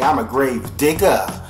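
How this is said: The word digger is said in dialect.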